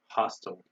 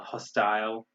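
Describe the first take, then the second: First: The word is said in an American accent. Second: The word is said in a British accent.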